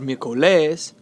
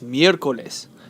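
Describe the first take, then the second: First: The stress falls on a later syllable. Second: The stress is on the first syllable. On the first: The speaker calls it wrong. "It's not" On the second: The speaker calls it right. "The stress is on the third to last syllable"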